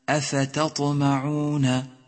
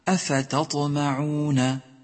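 No difference in how they are said.

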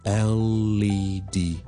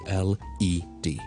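First: The L sound runs straight into the E. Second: Each letter is said separately without linking. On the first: "我哋个L 音咧系会楞埋落去后面嗰个E 度嘅，就会读成LED" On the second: "就唔使话读成LED"

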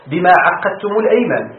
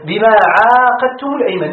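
First: The middle consonant of the verb is doubled. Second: The first vowel of the verb is long.

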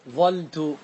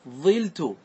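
First: One l sound, with an a vowel after the first consonant. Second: One l sound, with an i vowel after the first consonant. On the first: "احذف اللام واترك الفاء كما هي ... فتحة" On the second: "احذف اللام وتنقل حركة العين ... انقلها الى الفاء"

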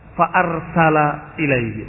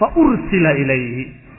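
First: The verb starts with an 'a' vowel. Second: The verb starts with a 'u' vowel. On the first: The sender is named as the Prophet. "maka dibaca fa arsala ilayhi" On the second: The sender is left unnamed. "Mabni lil majhul, yang tidak disebut fa'ilnya"

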